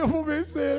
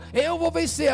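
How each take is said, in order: First: It is said in a weak, tearful voice. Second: It is said in a confident, determined voice.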